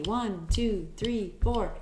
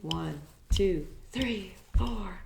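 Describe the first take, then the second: First: It is counted at a faster tempo. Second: It is counted at a moderate tempo.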